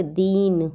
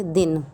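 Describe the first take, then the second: First: दीन with a drawn-out ee, leaning on the vowel; long stressed i. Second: दिन with a short, light i and no push on the vowel; short unstressed i. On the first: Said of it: "शब्दों पर जोर देते हैं". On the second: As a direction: say दिन with a brief i, unforced. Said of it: "शब्द पे जोर नहीं देते". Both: Shown as a demonstration.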